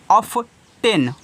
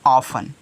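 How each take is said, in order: First: The t sound is pronounced in the middle. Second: The t sound is left silent in the middle. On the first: The speaker calls it wrong. "अब जिसको नहीं मालूम है पढ़ेगा ऑफ टेन, ऑफ टेन नहीं" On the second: The speaker calls it right. "टी क्या रहता है? साइलेंट। तो हो जाएगा ऑफन"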